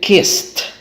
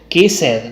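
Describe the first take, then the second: First: The final sound is a plain t. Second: The final sound is not a plain t. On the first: The speaker calls it right. "va a decir kissed. ¿Yes? Como vimos en los examples, con T al final" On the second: The speaker calls it wrong. "no va a decir kissed"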